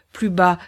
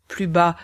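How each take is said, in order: Both takes have the same delivery.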